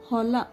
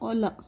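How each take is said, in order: First: The word begins with an h sound. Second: The word begins without an h sound. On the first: The speaker calls it right. "Hola means farm" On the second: The speaker calls it wrong. "Instead of hola, they say ola. There is no word called ola also"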